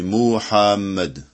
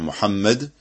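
First: The vowels in the name are drawn out. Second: The vowels in the name are kept short. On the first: The speaker calls it wrong. "en prolongeant les voyelles" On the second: The speaker calls it right. "au lieu de dire Muhammad"

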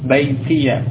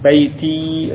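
First: The word ends with an extra ya syllable. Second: The word ends on a long i, no vowel.

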